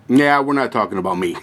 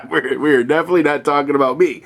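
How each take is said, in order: First: Said in the usual way. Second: Chuckling through the repeat, a bit faster; laughing. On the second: Real, not acted. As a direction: laugh it off while stressing definitely. Repeats joke while laughing.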